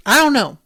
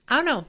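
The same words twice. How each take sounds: First: Loud, punched "don't" in "I don't know"; emphatic I don't know. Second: Said in the usual way. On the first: Real, not acted. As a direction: hit "don't" hard in "I don't know". Emphatic repeated uncertainty.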